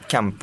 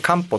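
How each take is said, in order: First: The first syllable is a 'kya' sound. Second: The first syllable is a plain 'ka' sound. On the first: This is how the name itself is read. "読みはキャンポ" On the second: This is the Spanish reading of the word. "スペイン語でカンポって読むんですよ"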